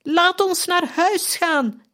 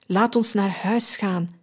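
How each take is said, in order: First: Very high, slow, desperate shriek; slow high anguished scream. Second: Said in the usual way. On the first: A narrator's reading. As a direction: cry out much higher and drawn out. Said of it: "gilde opnieuw". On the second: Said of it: "En wat betekenden die woorden".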